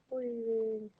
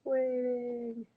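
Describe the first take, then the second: No difference in how they are said.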